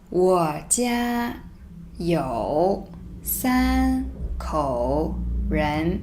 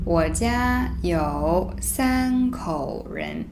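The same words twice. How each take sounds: First: Very slow, separated words; reading slowly word by word. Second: Slow, joined read; slow read-through. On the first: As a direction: spell it out word by word. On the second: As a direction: read the whole line slowly. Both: Shown as a demonstration. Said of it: "let me read it first".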